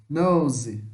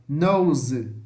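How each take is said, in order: Both takes have the same delivery.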